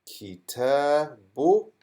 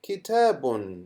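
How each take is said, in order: First: Slow, drawn-out kitabu with a rising end; slow reading. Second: Said in the usual way. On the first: Shown as a demonstration. Teacher sounding out the word without tanween. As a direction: sound out "Kitabu." slowly, no final n. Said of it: "How would I read this now".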